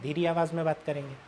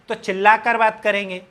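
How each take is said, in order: First: It is said in a quiet voice. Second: It is said in a shouting voice.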